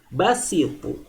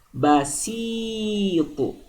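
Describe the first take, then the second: First: The vowel after s is short. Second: The vowel after s is long. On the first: "Bedakan dengan basitu" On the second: "Sinnya panjang"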